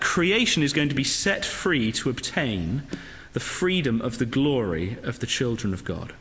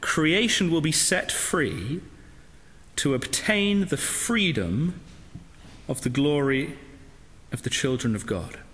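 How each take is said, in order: First: It is said at a normal pace. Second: It is said more slowly.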